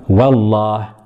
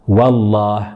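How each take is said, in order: Both takes have the same delivery.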